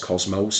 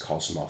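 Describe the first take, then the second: First: The word is said the American way. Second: The word is said the non-American way. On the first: This is how others say the word. "I've also heard it pronounced Cosmos. ... That could be the American um, pronunciation" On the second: This is how the speaker always says the word. "as I would say the word, which is Cosmos"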